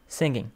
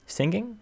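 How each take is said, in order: First: Said in the usual way. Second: Sharply rising question, much higher; Singing? leaps way up in pitch; surprised echo. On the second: A narrator's reading. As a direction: echo the word in disbelief. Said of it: "Yamada repeated".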